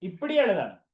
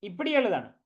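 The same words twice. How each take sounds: The two takes are said the same way.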